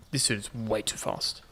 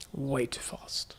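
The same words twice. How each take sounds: First: Said in the usual way. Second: Slow, hushed whisper; whispered echo. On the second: Real, not acted. Player echoing own remark on a fast dude, whispered. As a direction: stretch it out in a whisper.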